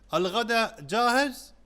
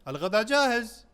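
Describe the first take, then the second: First: It is said with a questioning tune. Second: It is said as a plain statement.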